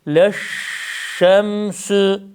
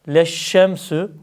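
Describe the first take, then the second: First: The sh sound is pronounced like Arabic shin. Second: The sh sound is pronounced like Turkish ş. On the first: The speaker calls it right. "leşşemsü şeklinde olacak" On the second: The speaker calls it wrong. "Leşşemsü şeklinde değil"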